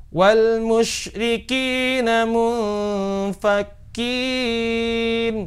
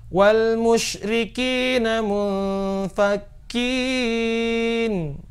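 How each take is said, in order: Both takes have the same delivery.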